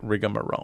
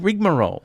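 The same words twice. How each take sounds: First: The word is pronounced the American way. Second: The word is pronounced the local way. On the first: This is how it is said in the USA. "by insisting on pronouncing it rigmarole" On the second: This is how it is said here. "We say rigmarole"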